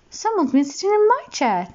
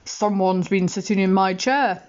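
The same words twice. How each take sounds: First: High mummy bear voice; high, indignant mummy bear. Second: Hint of a stern father bear; Daddy Bear. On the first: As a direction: lift it up high for the mother bear. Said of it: "said Mummy Bear". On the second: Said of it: "said Daddy Bear". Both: A narrator's reading.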